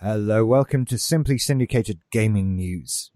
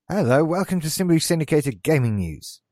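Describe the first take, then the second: First: The greeting sounds slightly suggestive and sultry. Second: The greeting sounds light and offhand. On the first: "That was a slightly lascivious intro" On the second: "That was flippant"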